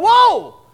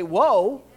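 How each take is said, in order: First: Sudden loud high whoa to stop someone; shouted warning. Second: Said in the usual way. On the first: Retold or imitated. Preacher retells calling out to a stranger in traffic, loud shout. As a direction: yell out to a stranger about to step into traffic. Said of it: "I'm going". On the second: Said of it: "and I'll still say".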